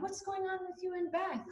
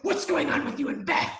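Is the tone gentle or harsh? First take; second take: gentle; harsh. First: It is asked in a soft, gentle tone. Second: It is asked in a harsh, confronting tone.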